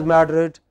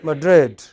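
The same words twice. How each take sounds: First: MADrid, stressed on the first syllable; wrong first-syllable stress. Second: Madrid, second syllable stressed and falling; correct final-syllable stress. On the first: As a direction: say Madrid with the weight up front. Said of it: "pronounced not as Madrid". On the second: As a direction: say Madrid with the weight on the end. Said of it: "in English it is pronounced". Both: Shown as a demonstration.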